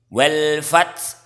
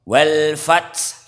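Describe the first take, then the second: Both takes have the same delivery.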